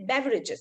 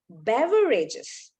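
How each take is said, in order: First: The word is said quickly in one go. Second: The word is said slowly, syllable by syllable. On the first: The speaker calls it wrong. "You don't say beverages" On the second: The speaker calls it right. "you got to go a little slow"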